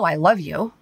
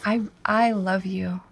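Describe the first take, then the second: First: It is said in a harsh, irritated tone. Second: It is said in a warm, affectionate tone. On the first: The speaker is annoyed with the listener. The speaker calls it wrong. "Nobody wants to be talked to that other way. It just kind of makes, it gives you chills and it makes you tense" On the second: The speaker truly feels love for the listener. The speaker calls it right. "honey, I love you. I really, really love you"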